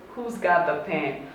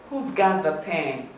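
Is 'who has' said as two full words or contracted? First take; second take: contracted; contracted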